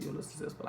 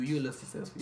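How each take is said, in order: First: Unvoiced, much softer whisper; whispered under the breath like a secret concession; whispered aside. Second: Said in the usual way. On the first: Real, not acted. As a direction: mutter it under your breath as a grudging aside.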